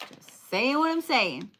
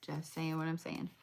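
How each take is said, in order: First: Higher, sing-song, teasing take with a lift on "what"; playful repeat. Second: Muttered much softer, almost to yourself; under the breath. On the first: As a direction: say it again with a cheeky higher lilt. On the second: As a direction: toss it off quietly as an aside. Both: Shown as a demonstration.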